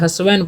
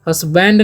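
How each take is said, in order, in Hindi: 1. 'd' की ध्वनि मौन रहती है। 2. 'd' की ध्वनि बोली जाती है। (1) "दी साइलेंट होता है यहाँ पर।" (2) "हस्बैंड नहीं"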